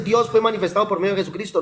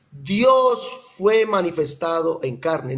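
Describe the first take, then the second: First: Said in the usual way. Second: Slow, deliberate stress on manifestado en carne; slow, weighty correct quote, leaning on "carne"; emphatic correction. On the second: Shown as a demonstration. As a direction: spell out "en carne" word by word.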